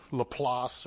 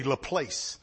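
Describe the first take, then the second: First: "Laplace" with an open "ah", ending in s; low, tentative French-style "Laplace", like "la-plahss"; attempted French pronunciation. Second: "Laplace" said the English way, last syllable like "place"; anglicized "Laplace", rhyming with "place"; English pronunciation. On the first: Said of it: "how you pronounce it in French". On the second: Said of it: "in English you say Laplace". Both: Shown as a demonstration.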